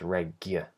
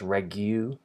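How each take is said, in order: First: The second vowel is a short uh. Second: The second vowel is a long oo. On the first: The speaker calls it right. "a y consonant and then an uh, uh vowel, a really short vowel" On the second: The speaker calls it wrong. "Not a u, but a y"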